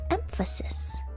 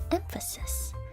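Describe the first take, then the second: First: The middle vowel is reduced and weak. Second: The same.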